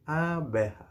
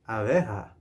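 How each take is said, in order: First: Say-along model. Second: Said in the usual way. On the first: Shown as a demonstration. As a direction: stretch "Abeja" so learners can join in. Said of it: "Say it with me now". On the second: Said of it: "we say".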